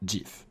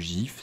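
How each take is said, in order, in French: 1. Le mot commence par un son dj. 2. Le mot ne commence pas par un son dj. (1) "c'est GIF. / D J I F" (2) "ou GIF"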